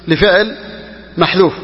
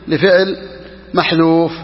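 The two takes are said the same way.

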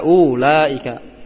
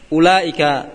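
First: The first vowel is long. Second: The first vowel is short. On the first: The speaker calls it wrong. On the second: The speaker calls it right.

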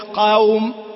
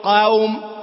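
No difference in how they are said.

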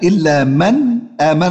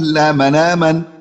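First: The last word runs straight on into the next word. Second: The last word ends the phrase with a stop.

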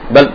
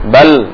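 First: The final L is cut off abruptly. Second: The final L sound is briefly prolonged. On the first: The speaker calls it wrong. "Nggak langsung mati. ... enggak" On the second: The speaker calls it right. "suaranya berbelok ke arah kiri dan kanan"

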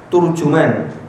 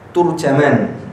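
First: Both the first and second syllables have 'u'. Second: The first syllable has 'u', the second 'a'. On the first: "turjuman dengan dom, ta dan jim" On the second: "Ta-nya di dhamma, jim-nya di fathah"

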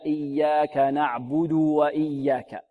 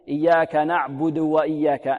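First: The u vowel before the w is fully voiced. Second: The u vowel before the w is clipped short. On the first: The speaker calls it right. "لابد من إشباع الضمة" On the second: The speaker calls it wrong. "لا نقول"

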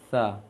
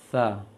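The two takes are said the same way.

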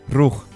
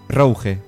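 First: The word is pronounced the French way. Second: The word is pronounced the French way.

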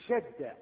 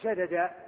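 First: The two d sounds merge into one doubled d. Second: The two d sounds are split apart by a vowel. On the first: The speaker calls it right. "تقول شد، يعني تأتيه على الأصل" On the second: The speaker calls it wrong. "ما تقول شدد"

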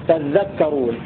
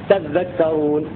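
Both takes have the same delivery.

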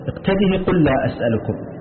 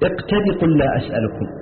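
First: The final h takes a short i vowel. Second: The final h is dropped entirely. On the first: "بإثباتها مكسورة من غير إشباع وصلا" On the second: "يحذفونها وصلا"

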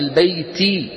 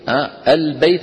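First: The word ends with a short vowel. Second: The word ends on a silent final consonant. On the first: This is the original form of the word. "أصلها" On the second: This is the form used when stopping on the word. "فسكنت بسبب شو؟ الوقف"

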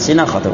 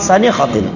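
First: The first syllable has the vowel i. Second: The first syllable has the vowel a. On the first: The speaker calls it wrong. "bukan sinakhatin" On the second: The speaker calls it right. "ya ana hafal sanakhatin"

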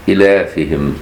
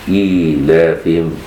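First: The vowel after the hamza is short, without ya. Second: The vowel after the hamza is lengthened into ya. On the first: "بغير إشباع الكسرة في الهمزة فلا يكون هناك ياء بعدها" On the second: "مش إيلافهم"

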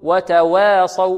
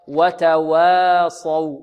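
First: The waw's vowel leans toward e. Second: The waw is thin and plain. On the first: The speaker calls it wrong. "هذا تقليل أو إمالة كبرى" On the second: The speaker calls it right. "وإخراجها مرققة هكذا"

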